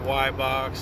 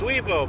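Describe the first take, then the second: First: The name starts with 'why' and ends with 'box'. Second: The name is said 'wee-bo' with no x sound. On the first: The speaker calls it wrong. "or Y-Box" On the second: The speaker calls it right. "It's Weebo"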